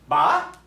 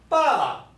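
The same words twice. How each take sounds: First: The pitch rises on the syllable. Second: The pitch rises then falls on the syllable. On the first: "you can hear the pitch of the voice go up" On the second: "the pitch of the voice go up and down"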